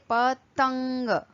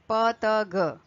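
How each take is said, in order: First: The word ends with a nasal 'ng' sound. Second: The word ends with a plain 'g' sound. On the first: The speaker calls it right. "So we say patang" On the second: The speaker calls it wrong. "You cannot read like patag. Patag will be totally invalid"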